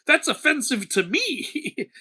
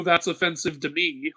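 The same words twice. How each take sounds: First: Higher, slower, hammed-up indignation; mock offended Aphrodite. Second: Said in the usual way. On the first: Aphrodite scolding a mortal who won't date, mock offended. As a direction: play the goddess taking it personally, slowly. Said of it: "And Aphrodite's like". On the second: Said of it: "and go".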